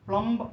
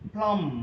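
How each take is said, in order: First: A b sound is heard at the end. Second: No b sound is heard at the end. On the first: The speaker calls it wrong. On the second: The speaker calls it right.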